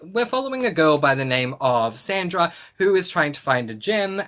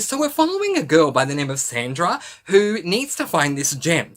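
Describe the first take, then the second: First: It is said in a neutral, flat tone. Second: It is said in an excited, enthusiastic tone.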